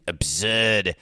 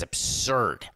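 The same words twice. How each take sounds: First: Put-on Boston accent, punched out; Charles Emerson Winchester. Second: Said in the usual way. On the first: Host quoting a TV character, hammed-up Boston accent. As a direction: do a bad upper-crust Boston accent. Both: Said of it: "as Charles Emerson Winchester would say".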